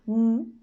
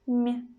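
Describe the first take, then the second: First: The consonant is hard, not palatalized. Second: The consonant is soft, palatalized. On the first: "hard sound M" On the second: "soft M"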